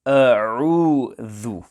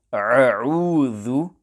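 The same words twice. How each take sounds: First: "A'udhu" with a clean Hamza, then a throaty Ain; "A'udhu" recited with distinct Hamza and Ain; correct Hamza and Ain. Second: "A'udhu" opened with a throaty Ain in place of the glottal stop; slow "A'udhu" with both consonants as Ain; Hamza as Ain. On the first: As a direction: keep the two sounds of "A'udhu" separate: glottal start, pharyngeal middle. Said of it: "The correct pronunciation will be". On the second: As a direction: squeeze the first vowel of "A'udhu" in the throat. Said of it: "pronounce the letter Hamza as Ain". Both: Shown as a demonstration.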